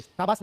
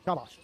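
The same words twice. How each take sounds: First: शाबाश mispronounced "saabaas", with s for sh; "saabaas" as the example to avoid; wrong sibilant shown. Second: शाबाश as "shaabaash", with sh; softer, lower शाबाश with clear sh sounds; correct sibilant shown. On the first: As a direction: say शाबाश with a plain hissed s at both ends. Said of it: "से नहीं बोलता है, शाबाश नहीं". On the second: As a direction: model "shaabaash", sh at both ends. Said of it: "शाबाश नहीं". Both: Shown as a demonstration.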